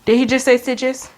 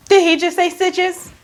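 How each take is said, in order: First: Said in the usual way. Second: Higher, mock-stunned question; disbelieving repeat. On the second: Patient hears the doctor mention stitches, mock disbelief. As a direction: ask it higher, acting out disbelief.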